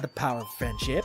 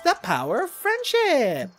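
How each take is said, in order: First: It is said in a flat, unenthusiastic way. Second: It is said in a bubbly, gushing way. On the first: The speaker calls it wrong. "You're not saying it right. It's not" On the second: The speaker calls it right. "speaking with that many rainbows"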